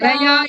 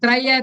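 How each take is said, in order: First: The final vowel is held long. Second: The final vowel is kept short. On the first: The speaker calls it wrong. "இல்ல" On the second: The speaker calls it right. "த்ரய தான் அங்க தீர்க்க சுரமே இல்லையே"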